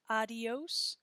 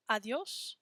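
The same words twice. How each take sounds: First: ADIOS split as ah-dee-ohs; three-syllable adios. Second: ADIÓS glided as ah-dyohs; two-syllable adiós. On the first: Teacher contrasts for the class, adios in three syllables. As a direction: give adios an extra syllable on the i. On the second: Teacher contrasts for the class, adiós in two syllables. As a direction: say adiós with dyos as one syllable. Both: Shown as a demonstration. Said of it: "Can you hear the difference".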